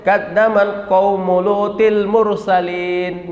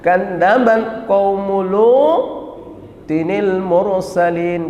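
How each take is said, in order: First: The n sound after 'Lut' is dropped. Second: An n sound links 'Lut' to 'al-mursalin'. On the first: The speaker calls it wrong. "nggak boleh" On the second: The speaker calls it right. "kalau disambungkan"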